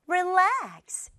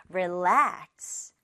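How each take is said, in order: First: Relax with the weight on -lax, higher; stress on second syllable. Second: Said in the usual way. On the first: Shown as a demonstration. Teacher modelling relax for the class with stress on -lax. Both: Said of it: "이음절에 강세 주세요".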